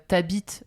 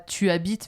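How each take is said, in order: First: The pronoun is shortened and joined to the verb. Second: The pronoun is said in full before the verb. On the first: The speaker calls it right. "mais euh, t'habites en France" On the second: The speaker calls it wrong. "pas tu habites"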